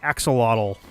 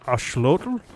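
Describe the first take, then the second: First: The consonant after the first vowel is 'ks'. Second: The consonant after the first vowel is 'sh'. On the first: This is the common anglicized form. The speaker calls it wrong. "I'm used to saying like axolotl, but it's it's not axolotl" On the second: This is the original native form. The speaker calls it right. "I think is supposed to be how it's pronounced"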